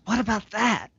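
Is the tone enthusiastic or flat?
enthusiastic. It is said in an excited, lively tone. "But he goes"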